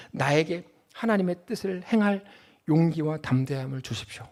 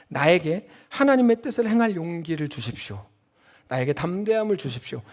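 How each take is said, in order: First: Soft, earnest prayer voice, quieter; a quiet model prayer. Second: Prayer. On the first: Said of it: "근데 이렇게 기도해야 돼요". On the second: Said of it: "이렇게 기도해야 됩니다". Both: Shown as a demonstration. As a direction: pray it humbly to God.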